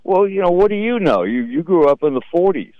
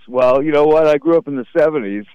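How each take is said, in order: First: Put-on raised, sassy teenage retort to his parents; lightly voiced bratty kid; mocking kid talking back. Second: Said in the usual way. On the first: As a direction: toss it back like a smart-aleck kid. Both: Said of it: "I used to go".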